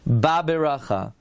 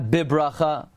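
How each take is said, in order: First: The word begins with a ba sound. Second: The word begins with a bi sound. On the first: The speaker calls it right. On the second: The speaker calls it wrong. "not bibracha"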